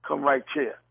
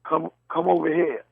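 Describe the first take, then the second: First: "right chair" for right here, T running into a CH; Southern pronunciation. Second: "come over here" with "here" as a separate, ordinary word; speaker's own pronunciation. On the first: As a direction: make here sound like "chair" in "Come right chair". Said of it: "And they'll say". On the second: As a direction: say "come over here" in standard words, no CH sound. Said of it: "Or I'll say". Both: Shown as a demonstration.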